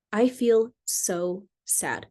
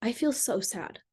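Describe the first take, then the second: First: Slowly drawn out, gently sad; slow sad repeat. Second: Softer, soft-spoken and hurt; vulnerable sad. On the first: Wife repeating her sadness to husband, slow. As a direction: let each word sink in, hurting. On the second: Wife telling husband her feelings, softly sad. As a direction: let the sadness show quietly. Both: Shown as a demonstration. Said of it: "you feel your feelings and you just say".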